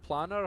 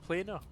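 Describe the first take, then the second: First: The first syllable sounds like 'plan'. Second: The first syllable sounds like 'plane'. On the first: The speaker calls it wrong. "See if I've been pronouncing that wrong" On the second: The speaker calls it right. "Should be planar, shouldn't it? Plane of existence"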